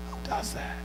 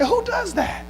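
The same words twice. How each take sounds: First: Very soft, whispered question; hushed disbelief. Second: Said in the usual way. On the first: Acted. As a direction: drop to a near whisper in disbelief. Same question repeated in a hush.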